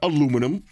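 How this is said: It is said in an American accent.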